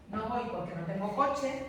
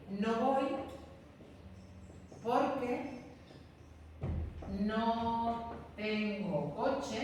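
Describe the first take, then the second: First: Said in the usual way. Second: No voy, pause, porque, pause, no tengo coche, each chunk set apart; teacher spelling out a sentence piece by piece; slow with pauses. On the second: Shown as a demonstration. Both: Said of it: "De manera que puedo decir".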